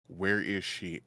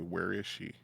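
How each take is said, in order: First: It is said loudly. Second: It is said fairly quietly.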